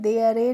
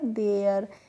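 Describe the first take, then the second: First: The word ends with an extra vowel sound. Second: The word ends on the r sound. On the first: The speaker calls it wrong. "देयर ए नहीं पढ़ा था" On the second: The speaker calls it right. "क्या पढ़ा था"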